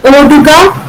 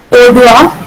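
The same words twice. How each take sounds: First: Oduga with the final ga kept; standard Malayalam form. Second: Odua with the g dropped; Kartanadan dialect form. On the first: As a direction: say Oduga in full, three syllables. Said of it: "in standard Malayalam becomes". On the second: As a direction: run the vowels together at the end of Odua. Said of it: "in Kartanadan dialect". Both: Shown as a demonstration.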